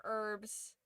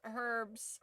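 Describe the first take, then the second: First: "herbs" pronounced "erbs"; "herbs" opening on the vowel; silent H. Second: "herbs" with the H pronounced; H sounded. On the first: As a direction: leave the H off "herbs". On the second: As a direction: sound the first letter of "herbs". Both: Shown as a demonstration. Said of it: "I'm not sure about".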